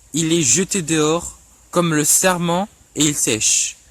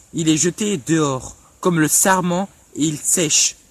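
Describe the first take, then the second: The two takes are said the same way.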